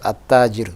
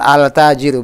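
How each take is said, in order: First: The article's L merges into a doubled T. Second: The article's L is clearly pronounced before T. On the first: The speaker calls it right. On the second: The speaker calls it wrong. "Bukan al-tajiru"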